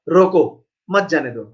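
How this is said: The pause comes after the word roko. Stop him; don't let him go. "अगर मैं comma थोड़ा पीछे लगा दिए तो क्या होगा?"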